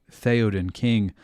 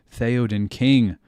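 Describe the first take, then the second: No difference in how they are said.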